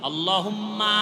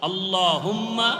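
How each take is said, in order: No difference in how they are said.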